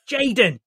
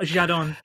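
First: The name is said the plain English way. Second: The name is said with a French-sounding pronunciation. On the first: The speaker calls it right. "think of a Manc mum shouting it across Tesco" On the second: The speaker calls it wrong. "You have Frenched it up a little bit"

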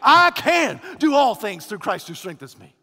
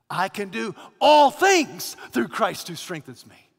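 First: The stress is on "I can". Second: The stress is on "all things".

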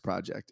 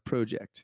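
First: Project is said in the speaker's usual accent. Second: Project is said in a Canadian-style accent. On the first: "our podcast is called The Atlas Project" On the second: "he calls it The Atlas Project"

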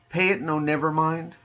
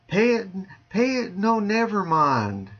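First: It is said in the speaker's ordinary accent. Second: It is said in a Southern US accent.

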